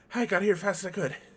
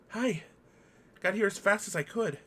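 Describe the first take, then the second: First: It is said in a rush, run together. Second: It is said at a normal, even pace.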